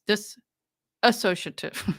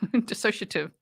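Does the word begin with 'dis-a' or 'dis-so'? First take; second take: dis-a; dis-so. First: The word begins with an extra 'dis-a' syllable. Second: The word begins directly with 'dis-so' syllables. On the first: The speaker calls it wrong. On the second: The speaker calls it right.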